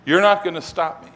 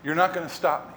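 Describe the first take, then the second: First: "You're not gonna stop me" said firmly at full voice; firm insistence. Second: Softly stated refusal; quiet resolve. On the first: Jesus answering Peter, "You're not gonna stop me" said insistently. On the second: Jesus answering Peter's objection, quietly resolute. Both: Retold or imitated.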